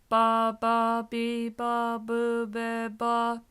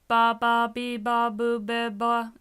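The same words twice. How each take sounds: First: It is said at a normal speed. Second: It is said too fast.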